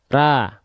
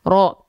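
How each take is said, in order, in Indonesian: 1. Mulutnya terbuka, bunyi vokalnya seperti a. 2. Bibirnya maju ke depan, bunyi vokalnya seperti o. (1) "membuka mulut tanpa senyum" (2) "memonyongkan, memuncungkan, memanyunkan mulut teman-teman ke arah depan"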